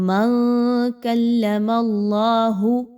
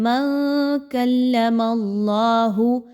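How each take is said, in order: No difference in how they are said.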